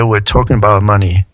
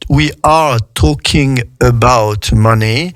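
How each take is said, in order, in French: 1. « we are » se prononce vite et réduit. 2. Les deux mots de « we are » se prononcent en entier.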